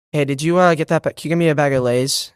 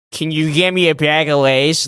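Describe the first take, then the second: First: Said in the usual way. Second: Louder, exaggerated Boston accent; mock with thick Boston vowels; mocking Boston douchebag. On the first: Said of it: "he'll be like". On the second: Younger brother mocking older brother, exaggerated Boston accent. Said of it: "make him sound like the biggest, like, Boston douchebag".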